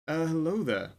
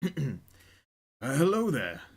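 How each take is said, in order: First: The voice is not gravelly, fairly clear. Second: The voice is rough and gravelly.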